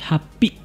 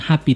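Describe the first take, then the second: First: The stress is on the last syllable. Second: The stress is on the first syllable. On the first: The speaker calls it right. "Penekanannya pada huruf i" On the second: The speaker calls it wrong. "bukan happy"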